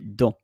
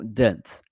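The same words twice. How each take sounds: First: The final t sound is silent. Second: The final t sound is pronounced. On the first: The speaker calls it right. "the T or the T S is silent" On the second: The speaker calls it wrong. "You don't say in French dent"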